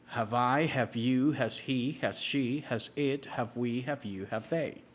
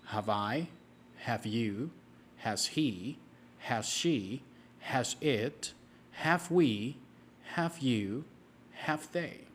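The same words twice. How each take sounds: First: It is said at a very fast pace. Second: It is said at a faster pace.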